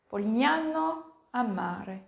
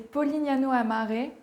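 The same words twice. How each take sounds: First: The name is said with an Italian accent. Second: The name is said with a French accent. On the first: "Oui, c'est plutôt ça, je pense" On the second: "avec mon bon accent français"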